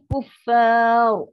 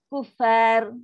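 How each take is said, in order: First: Louder, slow Kuffar with a thick heavy ra; correct thick ra. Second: Kuffar with a light, thin final ra; wrong thin ra. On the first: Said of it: "Dia akan bunyi kuffar". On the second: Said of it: "banyak orang macam itulah". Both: Shown as a demonstration.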